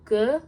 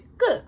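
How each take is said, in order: First: A plain g sound at a normal pitch. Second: A tense, doubled g sound at a higher pitch. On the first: "giok is like g" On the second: "it's a high pitch... the double version of it"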